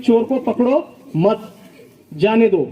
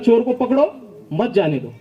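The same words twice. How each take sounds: First: The pause comes after 'mat'. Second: The pause comes after 'pakdo'.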